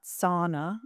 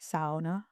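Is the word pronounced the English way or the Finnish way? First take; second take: English; Finnish. First: The first syllable does not rhyme with cow. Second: The first syllable rhymes with cow. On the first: "not sauna as in English" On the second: "So the first part rhyming with cow"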